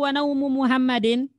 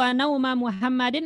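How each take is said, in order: First: The second word ends in a short 'u' vowel. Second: The second word ends in a short 'a' vowel. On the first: Muhammad's sleep also stood up. The speaker calls it wrong. "kalau dibaca wanaumu boleh nggak Pasikin? ... Tidak boleh" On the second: I stood at the same time as Muhammad slept. The speaker calls it right. "harus dibaca wa nauma"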